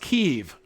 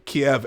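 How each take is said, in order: First: The city name has its Ukrainian pronunciation. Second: The city name has its widespread foreign pronunciation. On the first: This is how people in the country say it. "it's pronounced Kiev in the Ukraine" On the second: This is how people elsewhere say it. "but Kiev everywhere else in the world"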